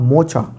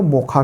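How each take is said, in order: First: The middle consonant is a 'ch' sound. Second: The middle consonant is a 'kh' sound.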